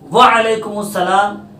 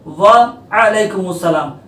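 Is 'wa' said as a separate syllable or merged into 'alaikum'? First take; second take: merged; separate. First: Wa is merged into the following syllable as wal. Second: Wa and a-laikum are said as separate syllables. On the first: The speaker calls it wrong. "वाव को ऐन से, ऐन पर ज़बर, ऐन पर जज़म देकर बोलना गलत है" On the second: The speaker calls it right. "वाव पर ज़बर, ऐन पर ज़बर है"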